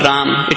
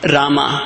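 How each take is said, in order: First: The name ends on the m consonant. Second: The name ends with a final vowel sound. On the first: The speaker calls it wrong. "not Ram" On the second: The speaker calls it right. "Rama, not Ram. It is Rama"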